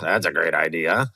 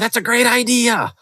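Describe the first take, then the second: First: It sounds sarcastic and contemptuous, after a groan. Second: It sounds genuinely excited and enthusiastic. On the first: The idea is secretly dismissed. The speaker calls it wrong. "I roll my eyes too, which is a sign of contempt" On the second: The idea is truly welcomed. The speaker calls it right. "okay, cool. Like, I'm excited"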